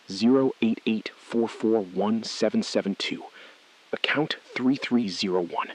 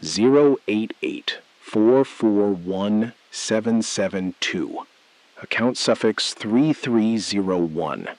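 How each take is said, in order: First: Said in the usual way. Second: Slow, deliberate digit readback; reading digits back slowly for the caller. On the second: Acted. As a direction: space each number out carefully. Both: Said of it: "Say it back slowly".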